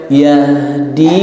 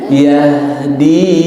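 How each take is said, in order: Both takes have the same delivery.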